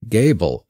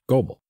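First: The first vowel sounds like 'ay' in gay. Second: The first vowel sounds like 'oh' in go. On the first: The speaker calls it right. "Gable is the most common pronunciation" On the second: The speaker calls it wrong. "just reading, I would pronounce Goebel"

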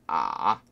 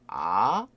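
First: The pitch dips low and then comes back up. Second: The pitch rises from mid to high. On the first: "꼬꾸라지면서 어떻게 돼요?" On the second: "아 하고 올라가죠"

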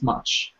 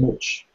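First: The vowel is an open 'uh' sound. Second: The vowel is a rounded 'oo'-like sound. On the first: This is the general English pronunciation. "the general English, you know, it's much" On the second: This is a regional pronunciation from parts of England. "certain parts of England where they pronounce it like that"

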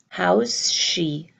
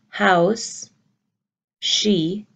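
First: The S sounds run together into one. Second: The two words are said separately. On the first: The speaker calls it right. "you hear how's she" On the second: The speaker calls it wrong. "You don't hear how's she"

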